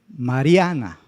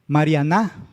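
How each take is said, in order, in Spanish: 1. El acento está en la sílaba del medio. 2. El acento está en la última sílaba. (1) "La penúltima" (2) "pronunciamos más fuerte la última sílaba"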